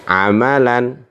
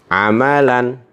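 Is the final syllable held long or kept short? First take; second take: short; short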